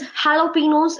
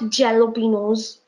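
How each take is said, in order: First: The word begins with an H sound. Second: The word begins with a J sound. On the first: The speaker calls it right. "It is jalapenos" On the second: The speaker calls it wrong. "It is not jalapenos. J is not there"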